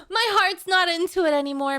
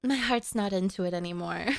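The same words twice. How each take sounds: First: Laughing. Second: Dejected. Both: Real, not acted. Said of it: "the feeling is gone".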